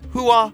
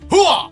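First: The word is said softly, without much force. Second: The word is said forcefully, with strong energy. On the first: The speaker calls it wrong. "Do I sound like a sissy when I say it?" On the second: The speaker calls it right. "Do I need to really like bear down and say"

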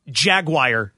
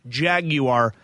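First: The ending sounds like the word wire. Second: The ending is said in the British way. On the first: The speaker calls it wrong. "Jaguar doesn't exist. That's not a pronunciation" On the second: The speaker calls it right. "or the British version"

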